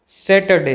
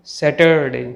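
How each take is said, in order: First: सैटरडे with the r left out; silent r. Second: सैटरडे with a drawn-out r syllable; slow down and sound the r in सैटरडे. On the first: Teacher gives correct pronunciation, r silent. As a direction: say सैटरडे without any r. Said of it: "सही pronunciation". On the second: Teacher warns against this version, r sounded. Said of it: "ना कि". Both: Shown as a demonstration.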